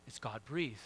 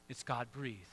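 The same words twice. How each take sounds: The two takes are said the same way.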